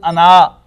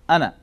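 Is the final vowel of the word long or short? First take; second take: long; short. First: The word ends with a long vowel. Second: The word ends with a short vowel. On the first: "In Urdu it is pronounced as ana" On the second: "But in Arabic it is pronounced as ana. The alif is not pronounced"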